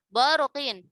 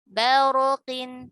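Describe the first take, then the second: First: The first syllable is heavy, with a dark vowel. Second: The first syllable is thin, with a light vowel. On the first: The speaker calls it wrong. "jangan baruqin" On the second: The speaker calls it right. "Tipiskan dulu ya"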